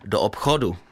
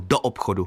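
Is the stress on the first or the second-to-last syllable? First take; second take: second-to-last; first. First: The stress is on the second-to-last syllable. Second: The stress is on the first syllable. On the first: This is the regional Ostrava way. "my v Ostravě řekneme jako Poláci, kteří mají na předposlední slabice" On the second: This is standard Czech. "čeština má přízvuk na první slabice anebo na předložce"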